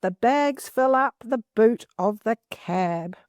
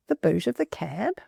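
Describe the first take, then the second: First: Slow, careful read-aloud of the sentence; steady storybook reading. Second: Mock-puzzled echo, rising at the end; playfully confused query to the class; puzzled question. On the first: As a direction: read it out slowly for the class. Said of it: "This particular sentence says". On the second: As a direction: repeat it as if the phrase makes no sense. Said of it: "That's a bit of a strange thing to say". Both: Shown as a demonstration.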